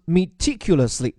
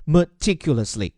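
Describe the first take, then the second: First: Meticulously as mi-TIC-ulously, short "i" first; "mi-" first syllable, second stressed. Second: Meticulously as muh-TIC-ulously; schwa first syllable. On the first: Teacher models the word, meticulously as mi-TIC-ulously. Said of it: "注意它的重音在第二个音节上". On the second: Teacher gives the alternative pronunciation, meticulously as muh-TIC-ulously. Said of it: "或者叫meticulously". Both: Shown as a demonstration.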